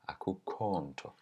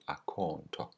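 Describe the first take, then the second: First: The first word is said in full. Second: The first word is said in shortened form.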